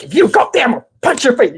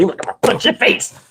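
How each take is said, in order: First: Higher-pitched mock threat; raised-pitch scolding threat; retold threat. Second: Softened, airy punch threat; lightly voiced, almost whispered threat; mock friendly threat. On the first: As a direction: warn a child off as a bossy uncle. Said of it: "He's like". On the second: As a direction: imitate an uncle making a toothless threat. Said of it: "So friendly".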